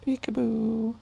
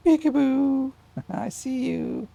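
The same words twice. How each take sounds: First: Sing-song peekaboo. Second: Loud peekaboo. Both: Real, not acted. Plays peekaboo with baby.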